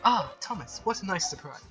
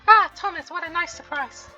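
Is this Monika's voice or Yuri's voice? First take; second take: Yuri's; Monika's. First: It is said in a Yuri character voice. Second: It is said in a Monika character voice.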